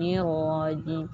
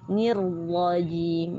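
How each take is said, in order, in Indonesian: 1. Huruf r yang dobel diucapkan dengan lemah dan singkat. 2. Huruf r yang dobel ditahan dengan kuat dan tegas.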